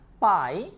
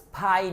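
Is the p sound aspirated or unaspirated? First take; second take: unaspirated; aspirated. First: The p is unaspirated without a puff of air. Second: The p is aspirated with a puff of air. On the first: The speaker calls it right. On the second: The speaker calls it wrong.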